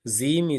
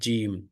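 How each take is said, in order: First: The word begins with a z sound. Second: The word begins with a j sound. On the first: The speaker calls it wrong. "They they mispronounce it as a Zim. Zim is not correct" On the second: The speaker calls it right. "It is Jim"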